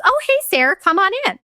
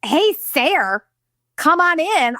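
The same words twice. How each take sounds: First: Much higher, sing-song cheery dad greeting. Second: Higher sarcastic echo of dad's greeting; mocking repeat. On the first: Retold or imitated. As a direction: play the falsely breezy dad. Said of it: "And my dad goes". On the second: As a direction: parrot him back mockingly. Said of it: "I'm like".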